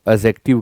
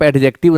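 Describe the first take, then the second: First: No separate d sound comes before the j. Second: A clear d sound comes before the j. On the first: The speaker calls it right. "डी silent है" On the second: The speaker calls it wrong. "एडजेक्टिव ना कहें"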